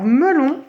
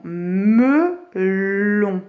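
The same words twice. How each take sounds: First: Said in the usual way. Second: Melon very slowly as me... llon; split into syllables. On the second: Shown as a demonstration. Teacher helping pupils find L, melon stretched syllable by syllable. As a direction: separate "me" and "lon" of melon, holding the L. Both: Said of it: "le nombre de syllabes de melon".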